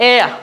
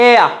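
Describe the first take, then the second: No difference in how they are said.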